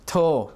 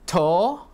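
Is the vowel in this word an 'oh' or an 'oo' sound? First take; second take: oh; oh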